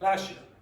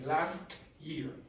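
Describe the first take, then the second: First: The t at the end of 'last' is dropped. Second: The t at the end of 'last' is pronounced.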